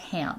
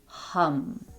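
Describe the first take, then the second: First: The vowel is like the one in 'jam'. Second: The vowel is like the one in 'gum'. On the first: The speaker calls it wrong. "it's not pronounced like ham" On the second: The speaker calls it right. "It's pronounced hum"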